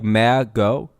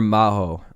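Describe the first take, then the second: First: The middle consonant is a hard G. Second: The middle consonant is an H sound. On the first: "do you say that like Mago" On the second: "M A H O, like Maho"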